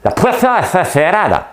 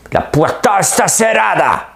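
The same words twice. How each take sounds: First: High, loud Spanish with exaggerated lisping; lisped Spanish accent. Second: High, loud, slow Spanish exclamation; Spanish accent. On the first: Mimicking how the series actors talk, lisped high Spanish shout. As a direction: shout in Spanish, turning the s sounds into lisps. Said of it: "Ben, ils mettent des". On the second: Retold or imitated. Imitating the series heard in Spanish, high Spanish shout. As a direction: belt it out like a Spanish TV drama. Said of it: "l'accent espagnol".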